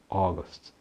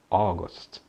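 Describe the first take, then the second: The two takes are said the same way.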